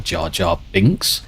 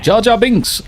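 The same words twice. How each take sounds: First: Said in the usual way. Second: High-pitched burst of recognition; sudden high, excited name call; excited exclamation. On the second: Retold or imitated. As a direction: blurt the name out high and gleeful. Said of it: "I'm like".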